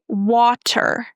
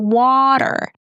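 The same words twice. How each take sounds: First: The middle consonant is a crisp true T. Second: The middle consonant is a soft D-like flap. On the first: "Americans don't say water" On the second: "They say water. Do you hear that D sound?"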